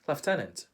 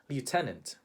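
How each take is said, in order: First: It is said with a British accent. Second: It is said with a Filipino accent. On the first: "How do Brits pronounce it?" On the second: "In the Philippines, we would say lieutenant"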